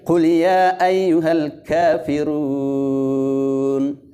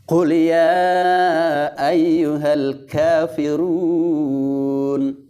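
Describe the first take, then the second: First: The long vowel is held for two counts. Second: The long vowel is held for four counts. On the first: The speaker calls it wrong. "itu dua saja" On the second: The speaker calls it right. "Jadi tambah lagi dua harakah ya. Jadi keempat"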